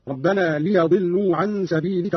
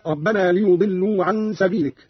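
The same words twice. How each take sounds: First: ليضلوا with fatha on the ya, "liyadillu"; Qalun's fatha reading. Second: Said in the usual way. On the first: Shown as a demonstration. Teacher shows Qalun's reading, ليضلوا said "liyadillu". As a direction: say ليضلوا as "li-ya-dillu", not "li-yu-dillu". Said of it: "قرأ قالون بفتح الياء هكذا". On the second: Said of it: "قرأ قالون بفتح الياء".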